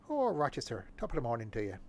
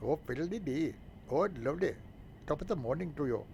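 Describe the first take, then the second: First: A light stage Irish lilt, hammed up; mock Irish accent. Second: Higher, hammed-up stage Irish; mock Irish accent. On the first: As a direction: greet Rochester like a cartoon Irishman. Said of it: "in an Irish accent". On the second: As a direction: ham up the Irish lilt, sing-song. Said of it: "apologize if you're offended by those remarks".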